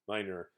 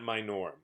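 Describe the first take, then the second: First: The second vowel is a relaxed 'uh' sound. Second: The second vowel is a full 'o' sound. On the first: The speaker calls it right. "so that's really the sound here" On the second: The speaker calls it wrong. "It's not minor"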